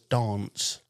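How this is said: The word is said in a posh accent. This is how the other person says it. "He says dance, ... It's posh"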